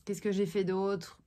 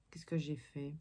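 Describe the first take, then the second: First: Said in the usual way. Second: Thinking aloud in a whisper; whispered to herself. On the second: Real, not acted. Vlogger trying to recall her day, whispering to herself. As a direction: whisper "Qu'est-ce que j'ai fait?" to yourself, much softer. Wondering to herself what she did.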